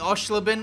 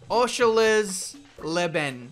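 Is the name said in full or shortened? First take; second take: shortened; full. First: A middle syllable of the name is dropped. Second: Every syllable of the name is said. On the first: The speaker calls it wrong. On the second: The speaker calls it right.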